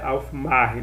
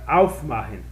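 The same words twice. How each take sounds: First: The stress falls on the syllable mach. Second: The stress falls on the syllable auf. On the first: The speaker calls it wrong. "Não é aufmachen" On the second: The speaker calls it right. "ela vira a sílaba tônica. Então é aufmachen"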